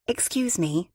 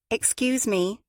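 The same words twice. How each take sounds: First: Said in the usual way. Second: Higher, slightly more insistent call; a little louder. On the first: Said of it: "so she said again, a little louder". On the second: A narrator's reading. Fabia to women who ignored her, a little louder. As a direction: ask for attention with a bit more push. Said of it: "a little louder".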